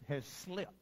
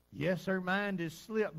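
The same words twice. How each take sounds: First: Said in the usual way. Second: "Yes, her mind has slipped" slowed and leaned on; slow, weighty emphasis on "her mind has slipped"; emphatic restatement. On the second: Shown as a demonstration. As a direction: press "slipped" firmly and slowly.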